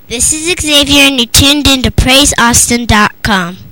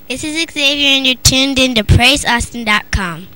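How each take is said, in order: First: It is said a little louder. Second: It is said at a normal volume.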